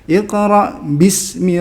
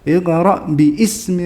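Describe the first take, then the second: First: The words run together without a separate vowel. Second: A separate vowel starts the second word. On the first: The speaker calls it right. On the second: The speaker calls it wrong.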